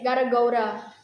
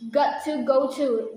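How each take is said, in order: First: The first two words blend into 'gotta'. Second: Each word is said fully and separately.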